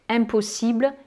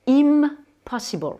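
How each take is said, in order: First: Said in the usual way. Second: "impossible" slow and higher, English, with a long M; sounded English M. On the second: Shown as a demonstration. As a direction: draw out English "impossible", holding the M. (« impossible » en anglais, lentement, M bien prononcé) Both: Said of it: "ils vont prononcer ce N ou ce M".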